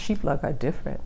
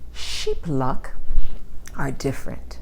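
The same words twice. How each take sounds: First: The phrase is said quickly and run together. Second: The phrase is said slowly and very clearly.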